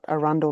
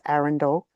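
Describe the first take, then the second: First: Said the way the Queensland place is said. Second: Said the way the English castle is said. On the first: The speaker calls it wrong. "not Arundel like in Queensland" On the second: The speaker calls it right. "it's Arundel"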